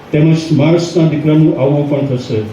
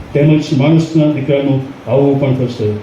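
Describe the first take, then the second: Both takes have the same delivery.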